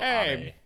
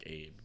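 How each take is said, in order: First: The name is said with two Japanese vowel syllables. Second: The name sounds like the English name Abe. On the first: The speaker calls it right. "but Shinzo Abe" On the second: The speaker calls it wrong. "it's definitely not pronounced like Abe"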